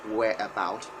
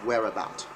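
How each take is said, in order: First: The R is not linked into the vowel. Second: The R links into the following vowel. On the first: The speaker calls it wrong. "So it's not whereabout" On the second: The speaker calls it right. "British, it's whereabout. So there's a connector there"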